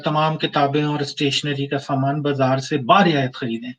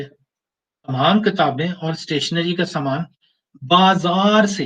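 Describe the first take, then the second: First: Said in the usual way. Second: Slow reading, बाजार से drawn out and set apart; stress on बाजार से. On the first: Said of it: "अक्सर जगह पे ये लिखा होता है". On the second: Shown as a demonstration. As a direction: stretch बाजार से slowly after a short pause. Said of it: "यानी हमसे नहीं".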